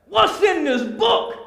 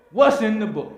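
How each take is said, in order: First: Much higher and louder pleading question; excited preaching cry. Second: Said in the usual way. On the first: Acted. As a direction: cry out eager to know. Asks about the book.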